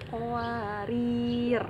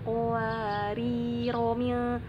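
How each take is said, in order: First: The word ends on a bare r and stops. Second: The r takes a short vowel and links onward. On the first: The reader pauses at this word. "Kalau kita mau berhenti di situ maka dibacanya sukun" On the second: The reader continues without pausing. "kalau mau dibacanya wasoh maka ro-nya dibacanya pendek"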